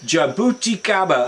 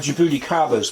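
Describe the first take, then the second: First: The word is said slowly and carefully. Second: The word is said at normal speed.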